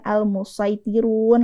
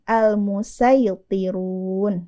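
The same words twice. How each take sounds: First: The s is a heavy, emphatic s. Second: The s is a plain, light s. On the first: The speaker calls it wrong. "bukan al-musaytirun lagi bacanya" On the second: The speaker calls it right. "kita ganti huruf shad ini dengan huruf sin"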